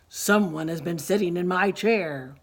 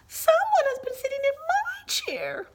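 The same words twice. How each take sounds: First: It is said in a loud, deep, booming voice. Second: It is said in a small, high, squeaky voice. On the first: "roared Papa Bear in his great big voice" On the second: "squeaked Baby Bear in his tiny little voice"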